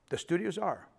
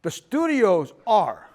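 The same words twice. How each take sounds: First: Said in the usual way. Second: The studios are, slow and punched loud; slow, loud insistence on the studios are; emphatic, slowed. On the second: Real, not acted. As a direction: drag out the studios are with heavy weight.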